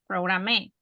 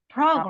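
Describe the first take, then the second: First: The stress is on the second syllable. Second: The stress is on the first syllable. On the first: The speaker calls it wrong. "Because it's not program" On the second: The speaker calls it right. "the accent is on the first syllable"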